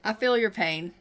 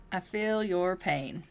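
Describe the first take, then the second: First: Said in the usual way. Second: I feel your pain, slow and softer; sincere sympathy. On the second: Shown as a demonstration. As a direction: draw it out like you truly mean it.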